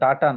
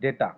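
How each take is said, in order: First: The first vowel sounds like 'ah'. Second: The first vowel sounds like 'ay'. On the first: The speaker calls it wrong. "কথাটা ডাটা নয়" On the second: The speaker calls it right. "কথাটা হচ্ছে ডেটা"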